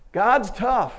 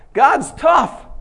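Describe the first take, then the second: First: Said in the usual way. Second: Much higher, loud exclamation; excited shout. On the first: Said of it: "quiet repeat after shout". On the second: Real, not acted. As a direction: shout it in awe. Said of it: "exclaims, then repeats".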